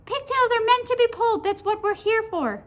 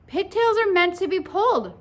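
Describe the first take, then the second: First: High, loud squeaky creature; squeaky, emphatic talking pigtail; little pigtail voice. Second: Raised, loud emphatic declaration; higher, forceful schoolboy pronouncement; Paul's concluding declaration. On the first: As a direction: declare it in a tiny high pigtail voice. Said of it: "said the pigtail". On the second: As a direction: proclaim it as a final verdict. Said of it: "Paul concluded". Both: A narrator's reading.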